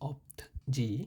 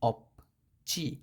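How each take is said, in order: First: The second syllable starts with a j sound. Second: The second syllable starts with a ch sound. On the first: The speaker calls it wrong. "এখানে হওয়ার কথা ছিল অপ্ত জি" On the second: The speaker calls it right. "জয়ের উচ্চারণটা চয়ের মতো হয়ে গেছে"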